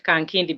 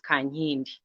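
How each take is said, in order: First: The second syllable starts with a 'k' sound. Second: The second syllable starts with an 'ny' sound. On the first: The speaker calls it wrong. "You pronounce it Kankindi because that is how it is written" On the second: The speaker calls it right. "but it actually is Kanyindi"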